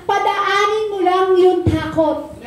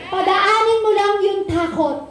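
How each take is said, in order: First: Padaanin mo lang yung takot drawn out slowly, each word weighed; slow emphasis. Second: Said in the usual way. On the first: Shown as a demonstration. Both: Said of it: "sabi nga po kanina".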